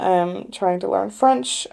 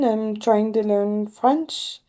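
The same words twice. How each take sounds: First: It is spoken in a plain American accent. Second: It is spoken in a slight French accent. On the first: The listeners do not understand it. "using my American accent" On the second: The listeners understand it better. "I speak in a slight French accent"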